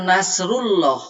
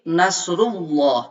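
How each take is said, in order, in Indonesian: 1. 'lah' diucapkan tipis dan ringan. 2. 'lah' diucapkan tebal dan berat. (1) "Jangan nasrullah" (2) "tapi nasrullah, harus ditafhimkan"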